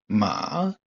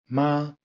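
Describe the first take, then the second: First: The pitch dips down, then rises higher. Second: The pitch stays high and level. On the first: "Troisième ton, celui qui descend pour remonter et arriver plus haut" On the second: "Premier ton, haut et tenu"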